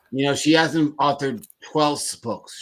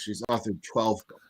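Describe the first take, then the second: First: "hasn't" stressed and falling. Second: "twelve" stressed, quieter line. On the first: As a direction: punch "hasn't" hard. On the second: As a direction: hit the word "twelve". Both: Shown as a demonstration. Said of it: "correcting the bio reading".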